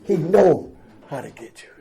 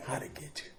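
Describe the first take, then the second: First: Said in the usual way. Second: Whisper. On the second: Real, not acted. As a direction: lean in and whisper it. Repeated line whispered.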